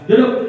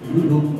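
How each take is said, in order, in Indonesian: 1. Diucapkan sebagai perintah yang keras dan kasar. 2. Diucapkan sebagai permintaan yang lembut dan sopan. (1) "enggak ada sopan"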